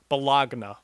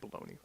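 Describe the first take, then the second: First: The word is pronounced a non-American, precise way. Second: The word is pronounced the American way. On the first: "technically, if you want to be really precise, it's bologna" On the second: "Americans like to say bologna"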